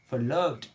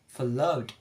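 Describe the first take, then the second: No difference in how they are said.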